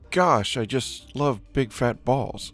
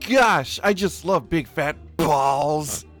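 First: The word balls gets no special emphasis. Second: The word balls is strongly emphasized.

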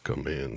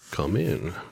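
First: The character voice is toned down and subtle. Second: The character voice is strong and exaggerated. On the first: The speaker calls it right. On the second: The speaker calls it wrong.

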